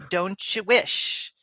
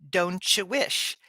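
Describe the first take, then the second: First: The three words run together as one word. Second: The same.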